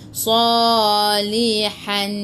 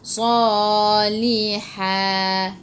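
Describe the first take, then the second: First: The word ends with an n sound. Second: The word ends with a long vowel and h. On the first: The speaker calls it wrong. "Jangan pula baca salihan" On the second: The speaker calls it right. "kena baca salihah"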